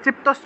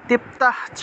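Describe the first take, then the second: First: It is said joined, with a sh-ch sound. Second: It is split, with an h sound before cha. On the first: "এটা তৃপ্তশ্চ উচ্চারণ করলে হবে" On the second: "চয়টাকে যদি ভাঙেন তাহলে তৃপ্তঃ চ তৃপ্তঃ চ এইভাবে উচ্চারণ হবে"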